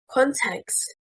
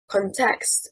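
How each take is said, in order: First: The stress is on the first syllable. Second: The stress is on the second syllable. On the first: The speaker calls it right. "stressing on the first syllable" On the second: The speaker calls it wrong. "stressing on the second syllable, is incorrect"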